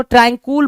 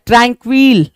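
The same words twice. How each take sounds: First: ट्रैंकुल said with "kool" as the second syllable; alternative pronunciation. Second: Said in the usual way. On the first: Shown as a demonstration. Teacher showing students how some read it, ट्रैंकुल ending like "cool". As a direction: end ट्रैंकुल on "kool", without the "w" glide. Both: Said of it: "कुछ लोग इसको ट्रैंकुल पढ़ते हैं".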